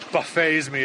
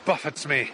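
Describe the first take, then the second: First: Buffets is said with a French pronunciation. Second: Buffets is said with an English pronunciation.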